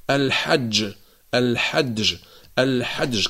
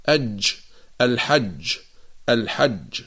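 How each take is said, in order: First: الحج said with a dal before the jim, like alhadj; wrong d-jim. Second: الحج with a clean jim, no dal in front; correct jim. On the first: Teacher mocks those who add dal to jim. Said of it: "فيقولون مثلًا". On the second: Teacher models the correct reading of الحج. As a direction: say الحج with one pure ج. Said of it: "يجب أن نقرأها". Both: Shown as a demonstration.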